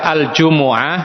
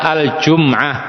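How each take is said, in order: First: An 'u' vowel follows the m sound. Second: No vowel follows the m sound. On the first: "yang lebih fasih adalah mendhammah mim" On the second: "boleh juga dibaca al-Jum'ah"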